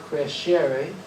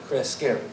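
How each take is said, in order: First: The middle consonant is a soft 'sh' sound. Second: The middle consonant is a hard 'sk' sound. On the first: "if you pronounce it the Italian way" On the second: "we should use a hard C"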